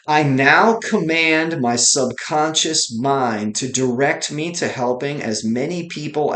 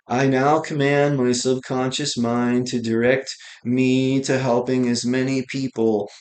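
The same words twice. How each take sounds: First: It is said with strong, lively energy. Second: It is said flatly, with little energy. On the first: The speaker calls it right. "listen to how I said that" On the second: The speaker calls it wrong. "I didn't say"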